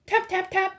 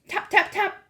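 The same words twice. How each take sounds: The two takes are said the same way.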